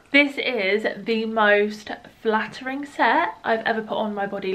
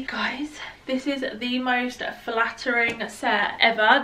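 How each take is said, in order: First: Breathless after running up stairs; out of breath. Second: Said in the usual way. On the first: Real, not acted. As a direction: speak through heavy breathing, out of breath. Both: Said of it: "firstly I'm out of breath".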